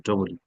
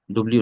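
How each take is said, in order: First: "ডবল ইউ" in full, double then you; uncontracted "ডবল ইউ"; corrected W. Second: "ডব্লিউ" squeezed into dobliu, no middle vowel; contracted "ডব্লিউ"; wrong contracted W. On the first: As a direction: keep the vowel before l in "ডবল ইউ". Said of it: "ডব্লিউ না, ডবল ইউ". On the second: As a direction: run "ডব্লিউ" together with a bl cluster. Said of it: "ডব্লিউ না". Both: Shown as a demonstration.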